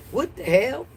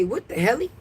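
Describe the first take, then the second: First: Said in the usual way. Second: "helly" with a playful extra -y sound, rising; mock "What the helly" with the final "helly" tipped up into a question; jokey "helly". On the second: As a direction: stretch hell into "helly" as a silly joke. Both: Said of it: "How they say".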